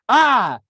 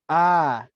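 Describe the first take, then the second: First: The sound is a full scream. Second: The sound is soft and half hushed. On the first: "I screamed at the ant" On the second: "I tried a semi-hushed hushed tone"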